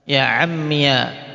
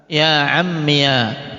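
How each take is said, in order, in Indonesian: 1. Kata itu berakhir dengan suku kata -iya. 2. Kata itu berakhir dengan suku kata -iya.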